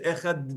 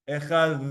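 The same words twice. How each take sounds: First: It ends in a hard, repeated d sound. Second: It ends in a soft, Yemenite th sound.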